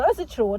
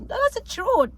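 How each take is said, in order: First: Said in the usual way. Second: High emphatic insistence. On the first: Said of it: "repeats the phrase". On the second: Real, not acted. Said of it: "repeats the phrase, much higher".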